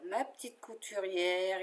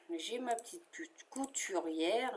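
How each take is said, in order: First: Said in the usual way. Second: Trips on "couturière", breaking it as "cou-, couturière" before getting it out; a real slip of the tongue on "couturière"; stumbling over the word. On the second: Real, not acted. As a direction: fumbles "couturière", restarts mid-word. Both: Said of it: "Je bafouille".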